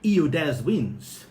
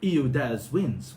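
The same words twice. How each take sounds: First: The h sounds at the word starts are dropped. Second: The same.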